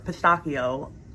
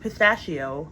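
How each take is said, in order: First: It is pronounced the Italian way. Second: It is pronounced the usual English way.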